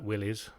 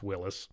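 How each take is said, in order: First: The name is said to sound like 'willies'. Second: The name is said to sound like 'Willis'. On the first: The speaker calls it wrong. "It's not Willys, even though as fun as that is" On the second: The speaker calls it right. "it's Willis"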